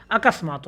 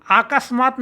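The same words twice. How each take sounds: First: Said in the usual way. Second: अकस्मात begun with a long "aa"; wrong long first vowel. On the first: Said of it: "होता है". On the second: Shown as a demonstration. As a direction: say अकस्मात as "aakasmat". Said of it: "नहीं होता". (अकस्मात का अ लंबा करके)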